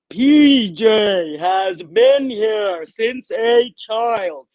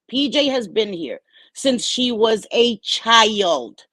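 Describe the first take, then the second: First: It is said slowly and deliberately. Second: It is said at normal speed.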